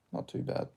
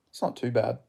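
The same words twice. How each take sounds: First: Unvoiced whisper, much softer; whispered repeat. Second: Said in the usual way. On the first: Shown as a demonstration. Whispering it back after reading chat aloud. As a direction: breathe it back to yourself.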